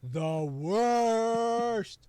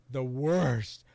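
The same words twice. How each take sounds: First: "worst" held very long, high and loud; exaggerated emphatic verdict. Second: "worst" slow and leaned on; emphatic verdict. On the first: Host repeating his verdict on Dan's voice, hugely exaggerated. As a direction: stretch "worst" out at full voice. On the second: Host naming the worst dub voice, emphatic. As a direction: weigh down on "worst". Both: Real, not acted.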